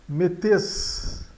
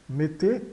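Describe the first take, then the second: First: "metes" with the last consonant sounded; final Z sounded. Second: "mete" ending on a closed E, no Z; closed final E. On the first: Teacher reads out the verb's spelling, "metes" with final consonant sounded. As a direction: read "metes" as written, ending in a hiss. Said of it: "O E Z de final de metes". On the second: Teacher explains verb endings, "mete" with closed final E. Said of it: "no final dos verbos soa E fechado". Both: Shown as a demonstration.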